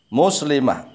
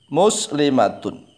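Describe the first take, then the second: First: The word ends with a soft h sound. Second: The word ends with a t sound and -un. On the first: The reading stops at this word. "Kalau diwakafkan muslimah" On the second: The reading continues without stopping. "Huruf terakhirnya tak marbutoh"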